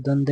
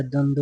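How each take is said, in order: First: द्वंद्व cut to "dwand"; wrong form. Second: द्वंद्व with its second v, "dwand-wo"; correct form. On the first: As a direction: drop the final v sound of द्वंद्व. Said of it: "नहीं होता है". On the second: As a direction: sound both halves of द्वंद्व. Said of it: "होता है". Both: Shown as a demonstration.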